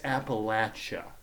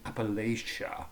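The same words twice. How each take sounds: First: The middle syllable sounds like 'latch'. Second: The middle syllable does not sound like 'latch'. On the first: The local way of saying it. The speaker calls it right. "No, it's Appalachia" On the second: An outsider's way of saying it. The speaker calls it wrong. "It's like Yankees trying to tell Southerners how to speak"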